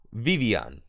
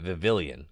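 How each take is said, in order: First: The double L is said as a y sound. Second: The double L is said as an l sound. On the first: The speaker calls it right. "The double L is a y sound" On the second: The speaker calls it wrong. "I was sounding crazy calling it Vivillion"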